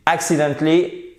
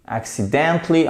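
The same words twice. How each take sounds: First: Accidentally with the stress moved off DENT onto AC; misplaced stress. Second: Accidentally with the stress on DENT. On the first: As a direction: say "accidentally", wrongly punching the first syllable AC. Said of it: "ça ne passe pas". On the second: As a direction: say "accidentally", leaning clearly on the syllable DENT. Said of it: "vous avez un petit accent tonique ici". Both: Shown as a demonstration.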